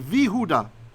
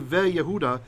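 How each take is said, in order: First: It begins with 'vi', with no separate 'y'. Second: It begins with a short 've' then 'ye'. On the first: The speaker calls it right. "we say" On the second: The speaker calls it wrong. "we don't say"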